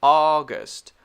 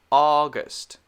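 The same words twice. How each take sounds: First: Said in the usual way. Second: "August" whispered, unvoiced, no tone. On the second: Shown as a demonstration. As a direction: breathe "August" without voice.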